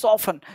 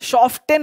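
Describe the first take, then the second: First: The t sound is left out in the middle. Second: The t sound is pronounced in the middle. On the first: The speaker calls it right. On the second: The speaker calls it wrong.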